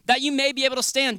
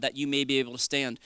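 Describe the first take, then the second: First: "That you may be able to stand" driven home, pitched high; emphatic repetition. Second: Said in the usual way. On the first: Shown as a demonstration. Preacher repeating "That you may be able to stand" to the congregation, emphatic.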